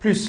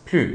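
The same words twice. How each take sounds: First: The final S sound is pronounced. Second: The final S sound is silent. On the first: The speaker calls it wrong. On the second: The speaker calls it right. "il ne faut pas prononcer le S"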